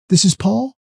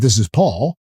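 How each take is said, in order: First: The voice rises at the end like a question. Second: The voice falls at the end like a statement.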